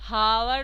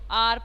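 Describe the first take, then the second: First: The word begins with an h sound. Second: The word begins with a vowel sound. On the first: The speaker calls it wrong. "हावर नहीं पढ़ते" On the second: The speaker calls it right. "इसको आर पढ़ते हैं"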